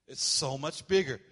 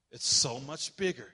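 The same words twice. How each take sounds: The two takes are said the same way.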